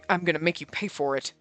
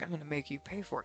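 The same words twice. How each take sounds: First: It is said in an angry tone. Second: It is said in a seductive tone.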